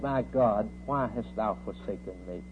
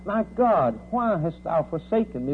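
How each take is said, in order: First: Subdued retold cry, falling softer at the end; understated cry. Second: Raised, higher preacher's cry; mild scream, pitched up in anguish; retold scream. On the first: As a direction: quote the anguished cry low and restrained. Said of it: "He cried". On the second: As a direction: cry it out without fully screaming. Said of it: "And he screamed out".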